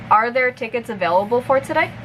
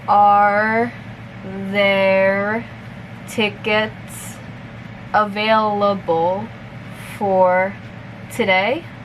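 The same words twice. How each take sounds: First: The sentence is spoken at natural conversational speed. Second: The sentence is spoken very slowly. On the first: "one more time at normal speed" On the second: "I'll repeat it slowly first"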